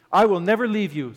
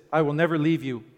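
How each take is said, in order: First: Louder, higher, stressing the promise; emphatic promise. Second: Said in the usual way. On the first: Acted. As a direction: press the promise home. Repeated promise, stronger.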